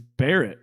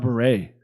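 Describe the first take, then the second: First: The name is said like Barrett. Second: The name is said like Beret. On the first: This is claimed to be the correct name. "It's Barrett, ain't it?" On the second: This is how the other host said it. "You called him Kyle Beret"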